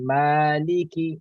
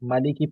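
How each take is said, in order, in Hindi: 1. पहला स्वर लंबा है। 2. पहला स्वर छोटा है।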